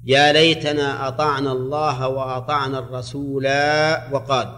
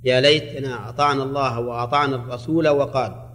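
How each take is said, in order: First: الرسول read without its alif; alif dropped on الرسول. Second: الرسول read with its alif; alif kept on الرسول. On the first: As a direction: say الرسول cut short, no final alif. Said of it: "هذه على قراءتي". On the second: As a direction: say الرسول with a long final alif, رسولا. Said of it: "كم في هذه على قراءتي". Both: Shown as a demonstration.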